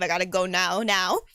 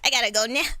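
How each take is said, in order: First: It is said in a plain, unpinched voice. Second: It is said nasally, with the nose pinched.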